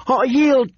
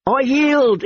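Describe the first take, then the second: First: High shrill desperate plea. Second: High shrill terrified plea. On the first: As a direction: shriek the surrender again. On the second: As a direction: shriek it out in panic. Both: Acted. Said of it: "he shrilled".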